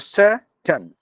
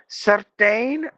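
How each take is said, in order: First: The vowel in the last syllable is silent. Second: The vowel in the last syllable is clearly sounded. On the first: The speaker calls it right. "you have to mute the I" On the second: The speaker calls it wrong.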